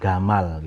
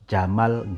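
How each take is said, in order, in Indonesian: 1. Kata ini diawali dengan bunyi g keras. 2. Kata ini diawali dengan bunyi j.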